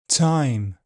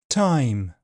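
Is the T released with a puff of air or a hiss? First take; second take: hiss; puff of air. First: The T is released with a hissing friction. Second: The T is released with a puff of air. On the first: "affricated, with a fricative release" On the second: "aspirated, with a puff of air"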